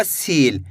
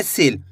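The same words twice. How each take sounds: First: सील with a drawn-out ee, "seel"; long vowel. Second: सील with a short i, as in "sil"; short vowel. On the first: Teacher showing how not to read it, long-vowel सील. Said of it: "ऐसे नहीं पढ़ना". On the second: Teacher showing learners how to read it, short-vowel सील. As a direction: keep the vowel in सील brief, not stretched. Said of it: "छोटी ई की मात्रा एक कम खींच के पढ़ेंगे". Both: Shown as a demonstration.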